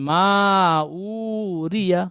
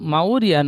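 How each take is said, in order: First: The 'u' vowel is drawn out long. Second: The 'u' vowel is short and run together. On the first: The speaker calls it right. "ও টান দিয়ে পড়তে হবে।" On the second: The speaker calls it wrong. "মাউরিয়া নই"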